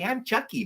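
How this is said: It is said in a sweet, childlike voice. "That's normally like the the the kid voice"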